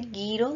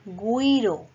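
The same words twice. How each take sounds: First: The u after the g is silent. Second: The u after the g is pronounced. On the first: The speaker calls it wrong. "no se dice guiro" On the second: The speaker calls it right. "sino se dice guiro"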